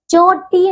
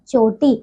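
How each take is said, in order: First: चोटी drawn out, pitched high; mispronunciation. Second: चोटी at usual length, pitched lower; correct pronunciation. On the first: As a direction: stretch चोटी as the faulty form. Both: Shown as a demonstration. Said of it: "चोटी नहीं".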